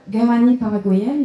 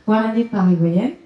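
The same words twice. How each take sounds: First: Guarani said with a hard French G; first-try pronunciation. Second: Guarani opening on a W, "wa-ra-ni"; corrected pronunciation. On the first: Host introducing a guest's origins, guarani said with a hard G. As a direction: say guarani as "ga-ra-ni", plain G and no W. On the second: Host redoing the guest's origin, Guarani said with a W sound. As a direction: say Guarani as "wa-ra-ni", no hard French G. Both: Real, not acted. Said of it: "Est-ce que j'ai bien prononcé?".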